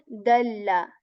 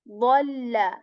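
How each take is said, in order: First: It starts with a light d sound. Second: It starts with a heavy emphatic d sound. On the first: The speaker calls it wrong. "This is not dalla" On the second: The speaker calls it right. "Right at the start there is ض heavy"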